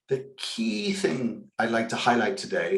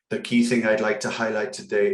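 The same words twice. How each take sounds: First: Key words are emphasized with a lively, varied voice. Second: Every word is read evenly in a flat voice. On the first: The speaker calls it right. "Look at the way I delivered that" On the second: The speaker calls it wrong. "just reading a sentence word by word"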